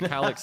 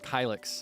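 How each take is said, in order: First: The name is pronounced Calyx. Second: The name is pronounced Kylix. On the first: The speaker calls it right. "That's the Calyx style" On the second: The speaker calls it wrong. "People call me Kylix sometimes"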